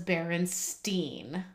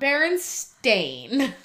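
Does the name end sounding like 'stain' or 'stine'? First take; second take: stine; stain. First: The name ends with a 'stine' sound. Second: The name ends with a 'stain' sound. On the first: This is the version remembered from childhood. "I 100% remember it being E-I-N" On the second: This is the actual name. "Not Berenstain"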